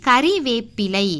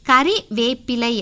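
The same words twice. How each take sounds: Both takes have the same delivery.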